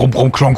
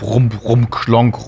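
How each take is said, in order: First: The rumbling sounds follow each other quickly. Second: The rumbling sounds follow each other slowly. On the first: This is how the noise used to sound. "Dieses ehemalige" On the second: The noise has become slower and less frequent. "es ist langsamer geworden"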